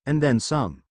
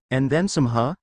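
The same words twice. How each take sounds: First: Said in the usual way. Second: Teasing smirk; sly, teasing question. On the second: A narrator's reading. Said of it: "said with a smirk and a raised eyebrow".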